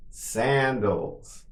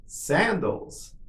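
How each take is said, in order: First: Drawn-out word for learners; slow model. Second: Somewhat higher, shorter take; quicker model. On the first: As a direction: say it slowly and evenly for repetition. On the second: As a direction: say it a little quicker, pitch lifted. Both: Shown as a demonstration. Teacher models word for repetition.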